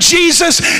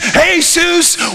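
First: The name is said with English pronunciation. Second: The name is said with Spanish pronunciation. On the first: "his blessed name, Jesus, in English" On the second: "I say his name in Spanish"

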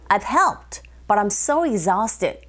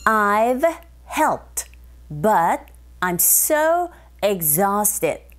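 First: The sentence is said quickly. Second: The sentence is said at a normal speed.

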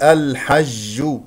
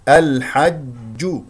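First: The j sound carries escaping air like sh. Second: The j sound is closed with no escaping air. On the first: The speaker calls it wrong. "ولا تخرج معها هواء فتصبح تشممها شين فتقول الحج. هذا خطأ" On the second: The speaker calls it right. "هكذا"

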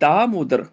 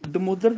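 First: The first vowel is long. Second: The first vowel is short. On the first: The speaker calls it right. "ਦੱਦੇ ਨੂੰ ਕੰਨਾ ਲਾ ਕੇ" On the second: The speaker calls it wrong. "ਨਹੀਂ ਬੋਲਣਾ"

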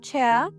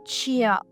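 First: The ch sound is hard and unpalatalized. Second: The ch sound is soft and palatalized. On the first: The speaker calls it right. "в англійській твердіше" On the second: The speaker calls it wrong. "не пом'якшуємо «чия» казати не треба"

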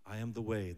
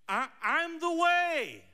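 First: The voice sounds reverent and solemn. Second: The voice sounds frustrated and disdainful. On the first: The line is treated as sacred words of power. "It's like so sacred" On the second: The speaker is exasperated with his listeners. "I think Jesus was like saying it like with such disdain"

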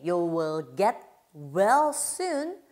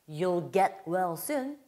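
First: You and will are said as separate words. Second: You and will are merged into one syllable. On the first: "you하고 will이 지금 떨어져 있는데" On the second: "붙여서 발음하면"

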